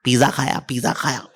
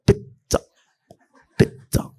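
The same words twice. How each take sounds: First: पिज्जा said as piza with a plain z; mock the Indian way: पिज्जा as piza; पिज्जा खाया with piza, no ts sound; wrong pizza. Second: पिज्जा said as pitsa with a crisp ts; hissed correct पिज्जा, pit-sa; पिज्जा voiced as pitsa, ts clearly sounded; proper pizza. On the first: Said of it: "It's an offense to pizza to say". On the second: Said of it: "ऐसे बोलते हैं". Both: Shown as a demonstration.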